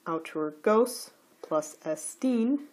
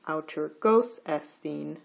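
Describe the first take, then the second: First: Slow "autur gos plus estine", pitch rising on both "gos" and "-tine"; separate word accents. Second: "autur gos estine" with pitch up on "gos" only; enclitic accent lost. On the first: Teacher giving the words before combining, each accented separately. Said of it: "the accent of estine". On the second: Teacher showing the combined words, accent of "estine" gone. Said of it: "the accent of estine disappears". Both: Shown as a demonstration.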